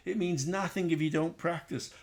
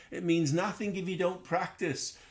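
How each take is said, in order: Both takes have the same delivery.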